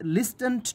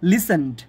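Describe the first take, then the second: First: The t sound is pronounced in the middle. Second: The t sound is silent in the middle. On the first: It helps remember the spelling. The speaker calls it wrong. "বানান মনে রাখার জন্য লিস্টেন্ট বললাম" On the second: It is the real pronunciation. The speaker calls it right. "But এটার উচ্চারণ হলো লিসেন্ড"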